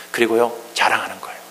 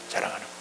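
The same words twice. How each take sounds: First: Said in the usual way. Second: Hushed echo. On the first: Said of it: "repeated softly". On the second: Shown as a demonstration. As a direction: repeat the phrase almost silently. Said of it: "echo repeat". (속삭이듯 작게 반복)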